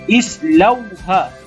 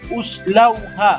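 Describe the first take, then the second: First: The word begins with an i vowel. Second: The word begins with a u vowel. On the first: The speaker calls it right. "kita perlu baca baris kasrah. Seperti islauha" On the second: The speaker calls it wrong. "baca baris depan uslauha. Tak boleh"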